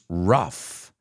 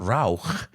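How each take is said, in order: First: The word ends in an F sound. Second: The word ends in a throaty 'ugh' sound. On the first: The speaker calls it right. "They sound like an F sound" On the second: The speaker calls it wrong. "It's not rauch, ... they don't sound like ugh"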